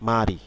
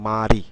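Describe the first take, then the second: First: The consonant links into the vowel as an r sound. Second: The same.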